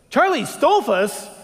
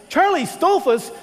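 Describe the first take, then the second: First: Slow, louder, a touch higher in disbelief; Tony echoing the name as it dawns on him; stunned recognition. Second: Much higher, louder cry of recognition; Tony's jaw drops as it fully sinks in; astonished exclaim. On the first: Tony realizes who the hitchhiker is, slow disbelief. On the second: Tony to hitchhiker, shocked loud higher exclamation. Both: Retold or imitated.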